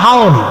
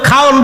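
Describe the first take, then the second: First: The word begins with an h sound. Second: The word begins with a kh sound.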